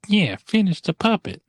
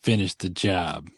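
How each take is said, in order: First: High-pitched mock henchman echo; Oompa Loompa. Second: Slow, lightly voiced henchman order; tall bully. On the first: Oompa Loompa egging on the bully, high piping voice. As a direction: pipe up high like an eager little sidekick. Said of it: "the Oompa Loompa's like". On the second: Tall bully ordering the hanging, slow mock command. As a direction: draw it out like an understated heavy. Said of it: "the tall bully's like".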